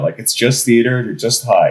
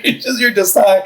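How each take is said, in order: First: Said in the usual way. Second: Higher, breaking into a laugh on it; calm yourself down but crack up; giggling through the reassurance; laughing self-talk. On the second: Retold or imitated. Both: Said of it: "I'm just like".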